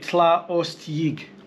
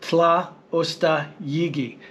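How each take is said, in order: First: The optional vowel sounds are dropped. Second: All the vowel sounds are pronounced.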